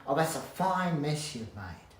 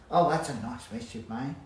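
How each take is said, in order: First: Louder, slower, weight on fine; mock exasperated scolding. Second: Louder, annoyed tone at a mess-maker; mock angry scolding. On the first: Telling off someone who made a mess, slow and cross. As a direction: drag it out, annoyed, leaning on fine. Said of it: "Instead of saying". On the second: Scolding someone who made a mess, louder and cross. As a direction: scold them for the mess, half in jest. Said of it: "you're angry". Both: Shown as a demonstration.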